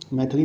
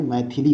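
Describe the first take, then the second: First: मैथिली said as mai-tha-li; wrong middle vowel. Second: मैथिली said as mai-thi-li; correct middle vowel. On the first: Teacher showing the mistake, middle vowel uh. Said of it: "नहीं होता है". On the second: Teacher correcting the word, middle vowel i. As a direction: put short i in the middle of मैथिली. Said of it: "होता है". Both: Shown as a demonstration.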